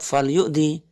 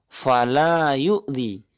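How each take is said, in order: First: The first word is said with one syllable. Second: The first word is said with two syllables. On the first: Then hurt. The speaker calls it wrong. "jangan salah mengucap fal yu'dhi" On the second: Do not hurt. The speaker calls it right. "di bagian pertama fala yu'dhi"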